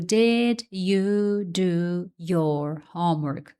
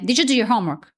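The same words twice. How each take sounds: First: Each word is said separately, like a robot. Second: The words run together quickly and smoothly.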